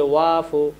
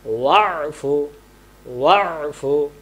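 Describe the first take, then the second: First: "ওয়াফু" as smooth long waa-fu; ain left out. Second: "ওয়াফু" with squeezed throat ain before fu; correct ain. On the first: Teacher shows the mistake, "ওয়াফু" without ain. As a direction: say "ওয়াফু" with no throat catch. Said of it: "এটা বাদ দিয়ে ফেলছি". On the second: Teacher models for pupils, "ওয়াফু" with ain sounded. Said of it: "তাহলে আমরা বলবো". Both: Shown as a demonstration.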